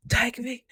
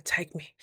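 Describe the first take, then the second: First: High blissful cry. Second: Said in the usual way. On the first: Retold or imitated. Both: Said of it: "I was like".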